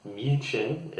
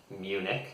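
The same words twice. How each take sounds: First: "München" said the German way, MUEN-khen; German pronunciation. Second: "Munich" said MYOO-nik, the English way; English "Munich" ending in a hard k; English pronunciation. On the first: Teacher contrasting German with English, "München" in German. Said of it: "German way of saying it". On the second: Teacher giving the English name of the city, "Munich" with k. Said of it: "differently in English". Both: Shown as a demonstration.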